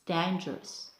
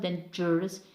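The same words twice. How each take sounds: First: The stress falls on the first syllable. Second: The stress falls on a later syllable. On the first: The speaker calls it right. "we put stress on the first syllable too" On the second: The speaker calls it wrong. "it's not dangerous"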